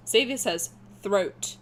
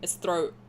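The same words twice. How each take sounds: First: "throat" with a crisp final T, slowly. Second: "throat" with a dropped final T; throat without T. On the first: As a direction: say "throat" fully enunciated, T clearly sounded. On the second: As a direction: say "throat" with a glottal stop at the end. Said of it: "there's no T at the end of it". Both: Shown as a demonstration.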